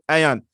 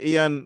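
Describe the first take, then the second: First: It begins with an 'eye' sound, like eye-on. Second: It begins with an 'ee' sound, like Ian. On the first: The speaker calls it right. "iron is the right pronunciation" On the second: The speaker calls it wrong. "make it sound like the name of a boy or a guy"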